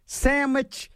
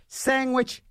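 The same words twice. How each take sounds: First: "sandwich" said as SAM-wich, higher; alternate pronunciation. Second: "sandwich" said as SANG-wich, higher; alternate pronunciation. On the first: Host lists ways to say the word, pronounced SAM-wich. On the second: Host lists ways to say the word, pronounced SANG-wich. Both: Shown as a demonstration. Shows variant sayings of sandwich.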